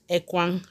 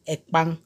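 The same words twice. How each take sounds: First: "ekwang" said with a kw sound. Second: "ekpang" said with a kp sound. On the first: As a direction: say "ekwang" with w after the k. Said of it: "which one is the correct pronunciation". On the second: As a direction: say "ekpang" with p in place of w. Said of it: "Some people say ekpang". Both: Shown as a demonstration.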